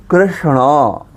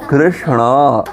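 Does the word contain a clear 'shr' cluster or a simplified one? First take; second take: clear; clear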